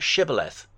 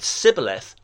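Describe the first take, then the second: First: The word begins with a sh sound. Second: The word begins with a plain s sound. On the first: The speaker passes the password test. The speaker calls it right. "not shibboleth" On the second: The speaker is from the wrong region. The speaker calls it wrong. "They said sibboleth"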